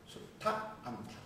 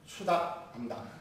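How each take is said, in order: First: The consonant after su- is strongly aspirated. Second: The consonant after su- is plain, unaspirated. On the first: The speaker calls it right. "뒤 거센 소리라는 거예요" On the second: The speaker calls it wrong. "얘들 논리라면은"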